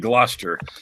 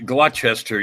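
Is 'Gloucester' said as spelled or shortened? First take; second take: shortened; as spelled. First: The word is said in its shortened form. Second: The word is said the way it is spelled. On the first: The speaker calls it right. "You say Gloucester" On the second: The speaker calls it wrong. "you don't say Gloucester"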